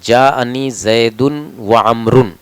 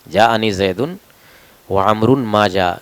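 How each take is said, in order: First: It stops right after 'amrun'. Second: It runs on past 'amrun' without stopping. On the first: Both Zaid and Amr came. The speaker calls it wrong. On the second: Zaid came and Amr did not come. The speaker calls it right.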